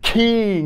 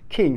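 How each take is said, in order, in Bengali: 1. k-টা প্রচণ্ড জোরে বাতাসসহ বের করা হয়। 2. k-টা হালকা ও মসৃণভাবে ছাড়া হয়। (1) "আস্তে আস্তে বেশি জোর দিয়ে বলবেন ... তখন আর কিং এরকম বলা লাগবে না" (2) "এটা একদম স্মুথ হয়ে যাবে"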